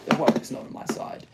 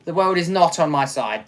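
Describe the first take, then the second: First: Soft, quick whisper of self-pity; whispered lament. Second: Said in the usual way. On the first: Real, not acted. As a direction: breathe it out defeated. Repeated lament.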